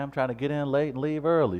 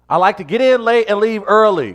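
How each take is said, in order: First: It is said mildly, without aggression. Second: It is said aggressively.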